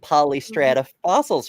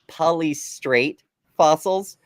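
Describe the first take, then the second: First: The first word ends with an 'ah' sound. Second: The first word ends with an 'ate' sound.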